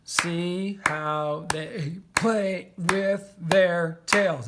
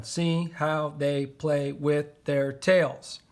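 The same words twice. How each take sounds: First: Very slow, stretching each syllable; drawn-out dictation while writing; syllable-counting. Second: Slow dictation. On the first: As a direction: count the seven beats aloud. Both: Shown as a demonstration. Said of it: "That's seven".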